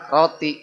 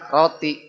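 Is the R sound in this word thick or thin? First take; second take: thin; thin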